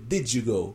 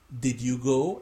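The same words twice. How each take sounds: First: Words run together like a native American speaker. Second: Each word is said separately and carefully.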